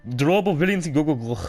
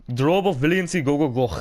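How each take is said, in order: The two takes are said the same way.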